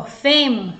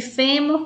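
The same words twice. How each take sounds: First: FEMO with a closed ê, as with a circumflex; closed stressed E. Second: FÊMUR with an open é, as with an acute accent; open stressed E. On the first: Teacher showing students the double spelling, closed E in "femo". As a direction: say "femo" with the first vowel closed. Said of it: "com acento circunflexo". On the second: Teacher showing students the double spelling, open E in "fêmur". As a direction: say "fêmur" with the first vowel open. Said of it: "com acento agudo". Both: Shown as a demonstration.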